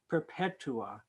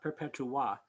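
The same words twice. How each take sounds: First: The final syllable is not stressed. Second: The stress falls on the final syllable. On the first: The speaker calls it right. "they shouldn't be accenting ah" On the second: The speaker calls it wrong. "not perpetua"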